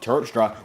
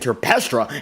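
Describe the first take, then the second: First: The name is said with two syllables. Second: The name is said with three syllables. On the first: The speaker calls it right. "I think I have a hold of your last name" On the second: The speaker calls it wrong. "we were saying Terpestra"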